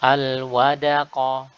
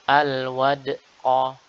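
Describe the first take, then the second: First: The d is followed by a full a vowel. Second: The d is followed by a glottal catch. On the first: "menjadi dal fathah" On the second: "Atau menambahkan hamzah seperti ini"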